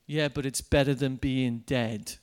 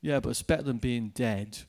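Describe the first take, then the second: First: The grim line repeated, lightly voiced; a hint of his deadpan; gloomy retort, retold. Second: Low, flat, deadpan gloom; a hint of a grim stranger; gloomy retort. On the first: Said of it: "this guy's just said to me". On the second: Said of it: "he looked at me like this and he goes".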